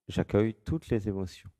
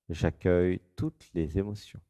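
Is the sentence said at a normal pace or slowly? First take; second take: normal; slowly. First: The sentence is said at an ordinary pace. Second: The sentence is said slowly and deliberately.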